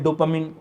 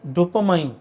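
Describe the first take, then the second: First: The last syllable sounds like 'min'. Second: The last syllable sounds like 'mine'. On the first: "it could be called डोपामिन" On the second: "pardon my pronunciation"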